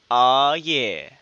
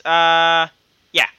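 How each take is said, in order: First: Long, low, suggestive "aw, yeah"; drawn-out inflection. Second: Long hesitant UH, short YEAH; hesitate, then drop a curt yeah; offhand reading. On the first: Acted. Co-host reading a listener's suggestion with added inflection, drawn out. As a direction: stretch the AW out and let it slide down. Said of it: "I'm adding some inflection to it". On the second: Retold or imitated. Co-host rereading a listener's message, offhand.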